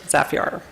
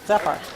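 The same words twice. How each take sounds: First: The name is pronounced in an overdone, forced way. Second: The name is pronounced in a plain, natural way. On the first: The speaker calls it wrong. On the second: The speaker calls it right.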